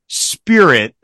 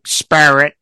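First: The word is said in a plain, standard way. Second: The word is said in an imitated regional accent.

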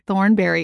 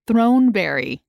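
First: The name begins with the sound 'thorn'. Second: The name begins with the sound 'throne'. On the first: The speaker calls it wrong. "It's not Thornberry" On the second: The speaker calls it right. "It's Throneberry"

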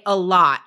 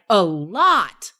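First: The words are said plainly, without extra force. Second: The words are said with strong, energetic force. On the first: "instead of just saying a lot" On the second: "putting the stress on that word was so good"

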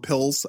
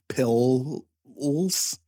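First: The word is said at a normal pace. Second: The word is drawn out slowly.

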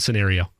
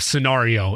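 First: The word gets a plain, everyday pronunciation. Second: The word gets a showy, over-the-top pronunciation. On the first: This is ordinary conversational use. "In an everyday conversation" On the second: The speaker is being funny or fancy. "If I'm being funny or over-the-top"

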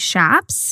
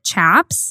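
First: The word begins with an 'sh' sound. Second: The word begins with a 'ch' sound. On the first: This is how Southwestern speakers say it. "she ended up saying that it's actually Shaps" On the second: This is how Midwestern speakers say it. "I've always pronounced it Chaps"

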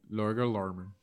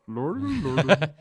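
First: It is said in a normal voice. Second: It is said in a Swedish Chef impression.

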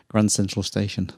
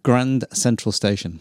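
First: It is said quickly. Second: It is said at a normal speed.

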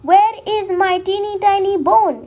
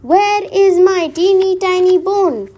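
First: It is said quietly. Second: It is said a bit louder.

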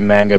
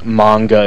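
First: The word is said with English vowel sounds. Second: The word is said with Japanese vowel sounds. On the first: The speaker calls it wrong. "I just say manga because that's the way I say it. I know that that's not really necessarily correct" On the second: The speaker calls it right. "it technically is manga if you pronounce it in the proper Japanese, you know, way"

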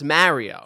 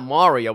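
First: The name is said with an Italian New York accent. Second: The name is said in a general American way.

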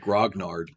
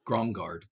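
First: The middle is sounded 'gn', g before n. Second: The middle is sounded 'ng', n before g. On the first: The speaker calls it right. "It's actually grognard" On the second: The speaker calls it wrong. "I always say it wrong, though. I say grongard"

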